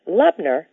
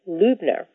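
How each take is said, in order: First: The first vowel sounds like 'tub'. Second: The first vowel does not sound like 'tub'. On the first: The speaker calls it right. "pronounce it Lubner, the correct way" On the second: The speaker calls it wrong. "most everybody pronounces my name Lubner"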